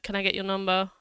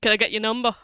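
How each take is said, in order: First: It is said in a polite, calm tone. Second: It is said in an awkward, impolite tone.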